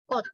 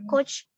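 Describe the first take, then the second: First: The word ends with a t sound. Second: The word ends with a ch sound. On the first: The speaker calls it right. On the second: The speaker calls it wrong.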